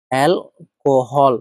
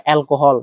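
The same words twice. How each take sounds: First: alcohol stretched very slowly, syllable by syllable; teacher dictating alcohol at a crawl; slow, spelled-out word. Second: Said in the usual way. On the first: Shown as a demonstration. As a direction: draw out alcohol slowly so students catch every sound.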